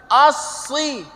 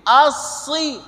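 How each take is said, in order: Both takes have the same delivery.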